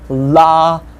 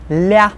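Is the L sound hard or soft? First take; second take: hard; soft. First: The L sound is hard, not palatalized. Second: The L sound is soft and palatalized. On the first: "L can sound both hard" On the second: "And soft"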